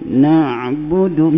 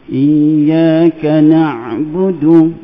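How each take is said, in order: First: Na'budu said once, plainly, falling at the end; spoken na'budu model. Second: Na'budu recited as one smooth unbroken word; reciting na'budu joined. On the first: Teacher repeats the word for students, plain speech. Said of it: "Macam tu je". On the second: Teacher shows students the joined na'budu, slow recitation. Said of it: "Tak boleh". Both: Shown as a demonstration.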